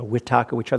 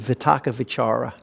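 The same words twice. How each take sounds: First: The words begin with a W sound. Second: The words begin with a V sound. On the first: "with a W instead of V, That's a Burmese accent" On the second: "with a V"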